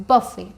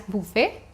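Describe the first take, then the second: First: "buffet" as BUH-fay, falling; correct pronunciation. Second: "buffet" as BOO-fay, tune rising; wrong pronunciation. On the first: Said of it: "the pronunciation will go be like". ("buffet" का सही उच्चारण, बफ़े) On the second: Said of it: "it's not pronounced as buffet". ("buffet" का गलत उच्चारण, बूफ़े) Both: Shown as a demonstration.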